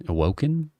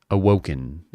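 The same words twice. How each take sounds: First: Awoken? with a sharp questioning rise; Awoken? said as if unsure it is a word; doubtful rising question. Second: Said in the usual way. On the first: Shown as a demonstration. Doubting his own word mid-story, Awoken? rising doubtfully. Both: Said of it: "Is that a word?".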